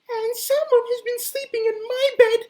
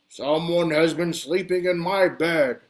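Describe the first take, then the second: First: It is said in a tiny, high, piping voice. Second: It is said in a big, deep, booming voice.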